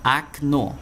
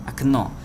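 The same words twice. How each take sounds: First: Окно said akNO, stress on the last syllable; first o in Окно sounds like a; Russian pronunciation. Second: Окно repeated, akNO; окно again with unstressed a; Russian pronunciation. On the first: Teacher repeats Окно for students. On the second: Teacher repeats окно for students, clear model. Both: Shown as a demonstration. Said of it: "Então fica com som de A".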